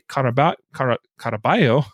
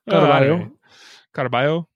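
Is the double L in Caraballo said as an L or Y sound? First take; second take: L sound; Y sound. First: The double L is said as an L sound. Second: The double L is said as a Y sound. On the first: The speaker calls it wrong. "did I say that right, Jacob? ... No" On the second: The speaker calls it right. "Isn't two L's like a yah sound? ... It's like a Y"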